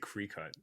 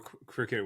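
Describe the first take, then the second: First: The first syllable sounds like 'cry'. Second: The first syllable sounds like 'crick'. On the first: This is how the name was once mistakenly said. The speaker calls it wrong. "I used to say Cricut" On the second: This is how the brand is actually pronounced. The speaker calls it right. "I didn't even know cricket was pronounced that way"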